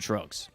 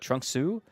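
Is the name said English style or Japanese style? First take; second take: English style; Japanese style. First: It is said English style, with no final vowel. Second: It is said Japanese style, ending in an extra vowel. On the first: This is how it is said in English. "We say just Trunks" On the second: This is how it is said in Japanese. "They say uh, Trunksu"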